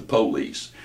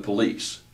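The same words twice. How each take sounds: First: Police stressed on the first syllable, PO-lice; wrong stress on police. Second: Police with stress on the second syllable, po-LICE; correct stress on police. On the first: Teacher showing the regional PO-lice. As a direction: punch the PO in police, drawn out. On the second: Teacher showing the proper police. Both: Shown as a demonstration. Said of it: "there's the difference in stress".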